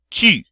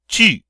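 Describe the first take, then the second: First: The vowel is a rounded sound absent from English. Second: The vowel is a rounded sound absent from English.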